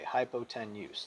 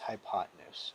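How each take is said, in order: First: It is said as spelled, with a full 'ten'. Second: It is said normally, with a reduced middle syllable. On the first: "I like to say it like that only because it spells that way" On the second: "The right way to say it is hypotenuse"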